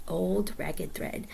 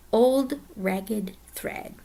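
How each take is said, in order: First: Put-on Old Ragged Thread repeated slowly and softer. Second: Each word slow and weighty; slow stressed. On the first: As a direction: say Old Ragged Thread again, slow and quiet. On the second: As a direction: spell out Old Ragged Thread slowly, stressing each word. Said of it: "is called". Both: Shown as a demonstration.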